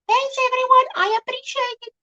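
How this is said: It is said in her special 'good' voice.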